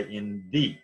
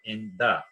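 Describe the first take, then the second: First: "the" with a long ee sound, /ði/; "the" pronounced thee, the alternative form. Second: "the" with a short uh sound, /ðə/; "the" pronounced thuh before the consonant. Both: Shown as a demonstration. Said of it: "or you can say in the".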